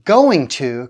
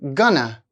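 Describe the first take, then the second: First: Both words are said fully and separately. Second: The words are blended into a reduced form. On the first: "Going to contracts to gonna" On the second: "contracts to gonna"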